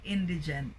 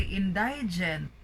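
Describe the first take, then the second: First: Indigent said IN-di-jent; corrected pronunciation. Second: Indigent said in-DIE-jent; mispronounced middle vowel. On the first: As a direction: stress IN in indigent, short middle i. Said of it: "So it should be indigent". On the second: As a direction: wrongly stress DIE in indigent. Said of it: "we often hear people say indigent". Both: Shown as a demonstration.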